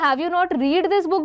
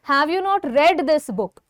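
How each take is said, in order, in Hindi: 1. 'Read' को लंबे ee स्वर के साथ बोला जाता है। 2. 'Read' को छोटे e स्वर के साथ बोला जाता है। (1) "ये गलत हो जाएगा" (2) "हम इसको प्रोनाउंस R E D रेड जैसा करते हैं"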